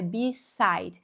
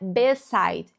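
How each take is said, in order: First: The first vowel sounds like English 'ee'. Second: The first vowel sounds like Portuguese 'eh'. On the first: The speaker calls it right. "é beside" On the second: The speaker calls it wrong. "não é beside"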